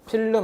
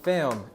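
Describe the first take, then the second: First: It is said Korean style with an added vowel. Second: It is said as one American-style syllable. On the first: The speaker calls it wrong. "필름 아니고" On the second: The speaker calls it right. "미국식 발음은 film"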